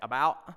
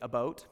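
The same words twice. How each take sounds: First: The word is said in an Alabama accent. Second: The word is said in a Canadian accent. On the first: "if you're from Alabama, you say about" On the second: "If you're from Canada, you say about"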